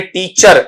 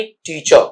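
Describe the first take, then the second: First: टीचर with a sounded final r; common mispronunciation. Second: टीचर as "tee-chuh", light ending, r dropped; corrected pronunciation. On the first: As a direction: say टीचर as "tee-char", r audible. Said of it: "ऐसा नहीं". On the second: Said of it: "last में एक हल्का sound". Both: Shown as a demonstration.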